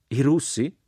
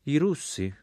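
First: Astonished echo question, higher and louder; deeply astonished. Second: Said in the usual way. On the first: A narrator's reading. Jack echoes the prince's answer, deeply astonished. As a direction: exclaim it as a disbelieving question. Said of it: "esclamò Jack profondamente meravigliato". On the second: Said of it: "rispose il principe di Candia".

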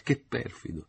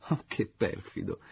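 First: Higher falsetto repeat. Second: Slow, falsetto mock reproach; coy falsetto scolding; in falsetto, lento. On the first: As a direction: repeat the coy reproach in falsetto. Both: A narrator's reading. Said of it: "ella ripeté in falsetto".

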